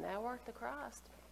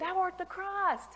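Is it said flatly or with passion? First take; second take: flatly; with passion. First: It is said flatly, without excitement. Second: It is said boldly, with passion.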